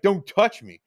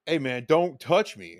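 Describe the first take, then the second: First: Louder, higher "Don't touch me" barked as a warning; yelled warning. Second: Said in the usual way. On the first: Retold or imitated. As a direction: snap "Don't touch me" at him, raised voice. Repeated warning, now yelled.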